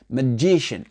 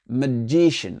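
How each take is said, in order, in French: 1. La première syllabe est réduite ; la deuxième est accentuée. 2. La première syllabe est réduite ; la deuxième est accentuée.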